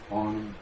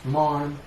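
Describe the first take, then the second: First: Said in the usual way. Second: Louder, higher retold hello; re-enacted loud, lifted greeting; bright greeting. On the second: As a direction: call out a morning greeting. Re-enacts brisk greeting on walk.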